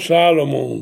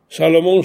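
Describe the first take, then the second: First: The stress is on the first syllable. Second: The stress is on the last syllable. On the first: "Adesso invece cambia pronuncia" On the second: "pronunciato con l'accento dell'ultima sillaba"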